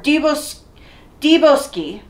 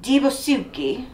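First: No vowel is heard between s and k. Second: A u vowel is heard between s and k.

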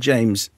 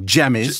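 First: The name is said with one syllable. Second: The name is said with two syllables.

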